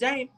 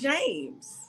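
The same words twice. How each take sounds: First: The name is said without the final s sound. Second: The name is said with the final s sound. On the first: The speaker calls it wrong. "minus the S, just James" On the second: The speaker calls it right. "You want James"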